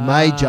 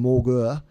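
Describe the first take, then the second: First: The name is said like 'major'. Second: The name is said like 'morger'. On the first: This is the pronunciation adopted during the war. "to major" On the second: This is the original, German-sounding pronunciation. "they changed the pronunciation from Morgur"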